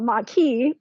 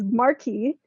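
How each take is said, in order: First: It is said without an R sound. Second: It is said with an R sound.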